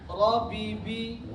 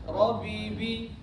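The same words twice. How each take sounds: Both takes have the same delivery.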